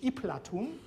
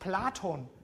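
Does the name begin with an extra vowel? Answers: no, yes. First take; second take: yes; no. First: An i vowel comes before the P-l cluster. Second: The name starts directly with the P-l cluster.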